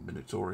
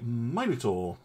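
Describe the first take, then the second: First: It uses the colonial, non-British pronunciation. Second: It uses the British pronunciation.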